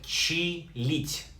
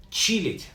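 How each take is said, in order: First: Чилить in two separated, slow syllables; slow pronunciation demo. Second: Said in the usual way. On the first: Shown as a demonstration. Teacher shows learners how чилить is pronounced, syllable by syllable. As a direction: break чилить after чи, unhurried. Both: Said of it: "pronounced like чилить".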